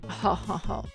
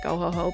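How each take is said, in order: First: It is a flat, low-energy, tired laugh. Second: It is an energetic, haughty rich-girl laugh.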